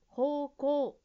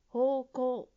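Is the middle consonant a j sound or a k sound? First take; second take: k; k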